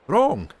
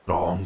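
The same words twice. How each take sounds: First: Sharp high furious bark of one word; fury. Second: Maid's quiet echo. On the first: Alan turns on the maid in fury, loud outburst. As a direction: explode at her with the one word. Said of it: "with a kind of fury". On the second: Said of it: "quoth she". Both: Acted.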